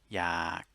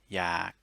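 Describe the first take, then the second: First: The word is said on a low tone. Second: The word is said on a low tone.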